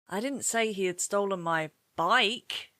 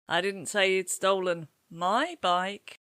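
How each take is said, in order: First: The word bike carries the main stress. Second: The word my carries the main stress. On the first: He stole something else, not the bike. "What has he stolen then" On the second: He stole a bike belonging to someone else. "He hasn't stolen my bike, has he?"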